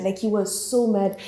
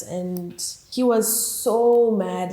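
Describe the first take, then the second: First: Said in the usual way. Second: "so" stretched long and slow; stress on so. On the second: Shown as a demonstration. Describing Amir's angry friend, slow drawn-out "so". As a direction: drag out "so" in "he was so mad".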